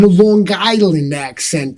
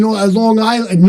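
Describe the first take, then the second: First: LONG ISLAND run together as "Lawn Guyland"; Long Island accent. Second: Said in the usual way. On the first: Shown as a demonstration. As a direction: say Long Island with a thick Long Island accent, a hard g in the middle. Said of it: "I can do one hell of an".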